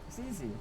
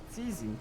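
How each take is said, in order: The two takes are said the same way.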